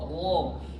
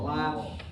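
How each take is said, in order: First: The r sound is thick and heavy. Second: The r sound is thin and light. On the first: The speaker calls it right. "Bunyinya tebal" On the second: The speaker calls it wrong. "bunyi ro berubah"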